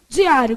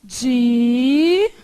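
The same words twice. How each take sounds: First: Said in the usual way. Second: "Diário" split into di, á, rio with long pauses; slow teacher's division of "Diário"; syllable by syllable. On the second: Shown as a demonstration. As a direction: stretch each syllable of "Diário", stopping between them. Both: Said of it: "como é que faz".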